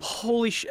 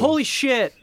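First: It is said with mild, ordinary emphasis. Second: It is said with strong, energetic emphasis.

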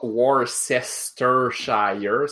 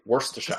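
First: Every written syllable is pronounced in full. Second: The syllables are compressed into a shorter form. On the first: The speaker calls it wrong. "C'est pas Worcestershire" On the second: The speaker calls it right. "T'es supposé tout comprimer"

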